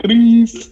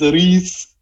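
First: Imitating a tearful Welsh cry, high; a hint of Gwen's Welsh sob; Welsh accent. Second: Put-on Welsh accent. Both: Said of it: "did you just attempt a Welsh voice".

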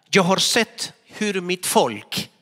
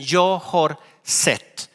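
First: Said in the usual way. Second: "Jag har sett" drawn out slowly, each word weighted; slow emphasis. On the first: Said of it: "read scripture". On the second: Shown as a demonstration. Preacher repeating God's words, slow and weighty. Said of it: "repeat of scripture, slowed".

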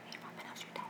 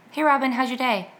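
First: Barely audible, voiceless whisper; mouthed nearly silently. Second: Said in the usual way. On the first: Shown as a demonstration. Host demonstrating an old anxious tic to listeners, soundless mouthing. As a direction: mouth the words with almost no breath behind them. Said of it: "to myself without sound, but mouth the words". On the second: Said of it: "So I would be like".

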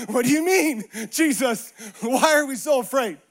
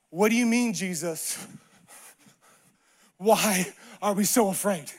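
First: Livelier mock disbelief after a laugh; disciples' incredulous retort. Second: Restrained, halting disbelief; disciples' puzzled retort. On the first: Disciples answering Jesus in the storm, openly incredulous. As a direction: throw the question back without the long pauses. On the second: Acted. Disciples answering Jesus in the storm, restrained disbelief. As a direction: pause long before the question, voice dropping. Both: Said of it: "probably say what the disciples".

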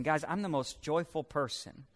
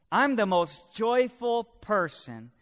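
First: Understated quote. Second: "I'm the most joyful person" slow, higher and emphatic; emphatic declaration. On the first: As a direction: say it quietly, as a passing remark. First take of repeated quote. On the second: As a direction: proclaim "I'm the most joyful person" slowly, raised in pitch. Same quote repeated for emphasis. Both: Acted.

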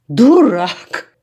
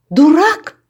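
First: Loud, falling Дурак! flung as an insult; angry cry. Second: High, loud incredulous cry of Дурак? rising to the top; shocked cry. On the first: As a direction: bark Дурак! right at him. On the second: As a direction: shriek Дурак? in disbelief. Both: A narrator's reading. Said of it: "скрикнула Янка".

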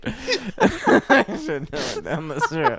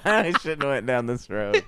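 First: Slow, higher, breaking into laughter; rueful laughing repeat. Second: Said in the usual way. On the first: Real, not acted. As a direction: say it again through laughter. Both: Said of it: "repeated laughing".

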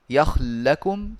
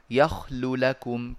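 First: Slow, louder yakhl-lakum for "يخل لكم", lams merged; إدغام. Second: Slow yakhlu lakum for "يخل لكم", each lam distinct; إظهار. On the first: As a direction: run "يخل لكم" together on one long lam. (إدغام اللامين في "يخل لكم" دون حركة بينهما) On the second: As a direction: keep the u after the first lam in "يخل لكم". (إظهار اللام الأولى مضمومة في "يخل لكم") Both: Shown as a demonstration. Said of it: "فجاز الإظهار والإدغام".

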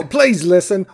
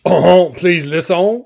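First: Said in the usual way. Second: Slow, hammed-up French accent; mock French with drawn-out vowels. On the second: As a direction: plead in a stagey French accent. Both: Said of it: "Or if they're French".

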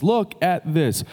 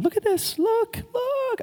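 First: Said in the usual way. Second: Much higher, squeaky and playful; surprised at his own high squeaky voice; silly high voice. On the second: Real, not acted. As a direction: slip into a goofy high-pitched voice by accident. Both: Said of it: "I don't know why I'm talking like this".

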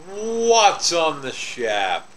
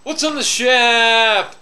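First: Slow, stretched segment intro; drawn-out catchphrase. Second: Loud, high, stretched-out call; shouted catchphrase. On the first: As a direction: draw out WHAT'S slowly before "on the shap". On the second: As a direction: belt out the catchphrase, holding SHAP long and high. Shouted repeat of segment catchphrase. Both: Pretend.

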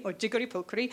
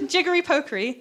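First: Said in the usual way. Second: "jiggery pokery" in a lilting Welsh accent, pitch raised. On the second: Shown as a demonstration. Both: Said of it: "that was a Welsh accent".

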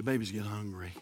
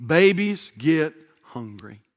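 First: Low, soft murmur; hushed, understated statement; quiet aside. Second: Each word drawn out and set apart; measured, emphatic repeat; slow, deliberate emphasis. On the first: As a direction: drop it low and soft, almost to yourself. Same line said two ways. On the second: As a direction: say it slowly at normal volume, word by word. Repeats the line slowly for emphasis. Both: Real, not acted.

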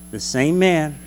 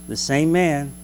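Both takes have the same delivery.

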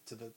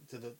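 The two takes are said the same way.

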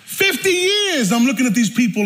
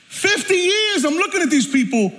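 First: Said in the usual way. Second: High, driving preacher's cry; impassioned preaching. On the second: Real, not acted. Preacher confessing years of judging his family, high impassioned preaching. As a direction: hammer it home at a raised pitch. Repeated at full preaching force.

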